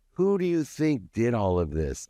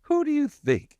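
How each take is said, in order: First: A mock drunken boast, a bit higher; retold drunken boast. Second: Much higher, louder mock yell; retold drunken yell. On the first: Drunk husband boasting to his wife, mildly raised mock yell. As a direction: reenact a wasted rant, mildly raised. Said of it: "spinning around wasted ... going". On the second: Drunk husband yelling at his wife, high mock shout. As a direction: shriek it like a drunk showing off. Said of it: "I remember".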